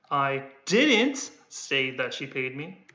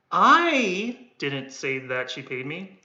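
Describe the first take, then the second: First: "didn't" punched with a rising lift, slow; slow line, weight on "didn't"; stress on didn't. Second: "I" hit with a rise, the rest slow; slow line with weight on "I"; stress on I. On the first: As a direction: lean on "didn't" in the sentence. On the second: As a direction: lean on "I didn't say that she paid me". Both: Shown as a demonstration. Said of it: "I'm only stressing the one that I'm holding".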